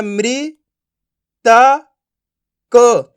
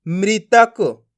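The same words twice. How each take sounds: First: "मृ", "त", "क" apart, the last two punched louder; syllable by syllable. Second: "मृतक" drawn out slowly as one word; blended word. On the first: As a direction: sound out "मृ … त … क" with long pauses. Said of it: "एक एक अक्षर का उच्चारण करो". ("मृ … त … क" एक एक अक्षर अलग करके) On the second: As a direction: read "मृतक" whole, without breaks. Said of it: "तो मिलके बन जाएगा". ("मृतक" अक्षर मिलाकर) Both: Shown as a demonstration.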